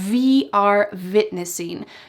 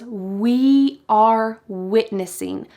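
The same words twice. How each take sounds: First: The first word begins with a buzzing V sound. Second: The first word begins with a rounded W sound. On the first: The speaker calls it wrong. "he uses a V sound" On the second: The speaker calls it right. "he doesn't say it with a clear W like that"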